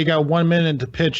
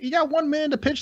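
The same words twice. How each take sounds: First: It is said in the speaker's normal voice. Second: It is said in a put-on character voice. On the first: The narrator reports what the character says. The speaker calls it wrong. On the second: The character speaks the words himself. The speaker calls it right.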